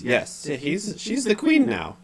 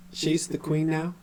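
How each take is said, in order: First: Very high confirmation, falling at the end; high, dazed statement; weird unconscious voice. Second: High, slow question rising on "now"; "now" rises, questioning; puzzled question. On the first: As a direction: affirm it in a high entranced voice. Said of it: "unconscious quality to his voice". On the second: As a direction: ask "she's the queen now" in disbelief, lifting the end. Halia doubts the claim. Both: Acted.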